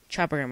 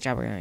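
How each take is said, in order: First: It is said clearly and carefully. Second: It is said fast and mumbled together.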